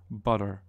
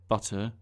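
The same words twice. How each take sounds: First: The middle consonant is a quick tongue tap. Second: The middle consonant is a clear T sound. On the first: "just kind of tap your tongue against your gum ridge" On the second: "pronounce the T's in butter as T"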